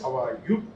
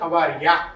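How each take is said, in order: First: The last word is said in full as 'you'. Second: The last word is reduced to 'ya'. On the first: The person is answering the greeting. "Answer చెప్పేవాళ్ళు how are యూ అంటారు" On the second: The person is starting the greeting. "మొదట మాట్లాడిన వాళ్ళు how are యా అంటారు"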